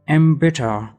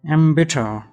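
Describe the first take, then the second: Both takes have the same delivery.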